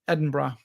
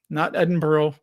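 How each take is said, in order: First: Edinburgh is said the way locals say it. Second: Edinburgh is said the way outsiders say it. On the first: The speaker calls it right. "Is how they say it" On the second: The speaker calls it wrong.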